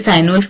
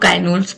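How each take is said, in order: First: The name begins with an S sound. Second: The name begins with a K sound. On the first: "आप उसे साइन उल्फ pronounce कर लो" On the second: "काइन उल्फ pronounce कर लो"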